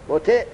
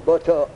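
First: بوتع as "bo-te", ending in e; kasra on ta. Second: بوتو as "bo-to", both vowels o; damma on ta. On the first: Teacher showing the form with kasra, بوتع said "bo-te". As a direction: say بوتع with an e after the t. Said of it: "کسره را که دادیم به تا، کدام وزن شد". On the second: Teacher showing kasra following damma, بوتو said "bo-to". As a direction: end بوتو on a clear o in place of e. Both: Shown as a demonstration.

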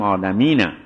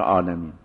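First: عالمینه ending on a short open vowel after the n; final vowel voiced. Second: عالمین stopped on a silent n; pausal ending. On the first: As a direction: say عالمینه without stopping on the n. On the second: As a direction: close عالمین on n, no final vowel. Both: Shown as a demonstration.

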